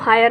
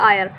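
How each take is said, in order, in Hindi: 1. शब्द की शुरुआत h ध्वनि से होती है। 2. शब्द सीधे स्वर से शुरू होता है। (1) "इसको हम हायर नहीं पढ़ते" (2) "बोलते हैं आयर"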